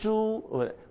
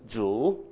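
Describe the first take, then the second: First: The pitch stays high and level. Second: The pitch dips down then rises. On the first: It means pig. "the first tone" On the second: It means Lord. "If you go down and up like a V"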